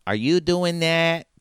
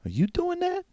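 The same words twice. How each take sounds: First: Redone Jill line. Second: High, startled question; Jill's voice. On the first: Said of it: "Wait, Chicago". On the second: Jill asks the players about the door, high and startled. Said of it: "Jill looks over and she goes". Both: Acted.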